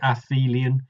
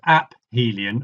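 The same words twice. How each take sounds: First: The p and h are softened into an f. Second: The p and h are said as separate sounds. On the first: The speaker calls it wrong. "Some people soften the ph and say aphelion" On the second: The speaker calls it right. "I prefer aphelion to stress the two parts of the word"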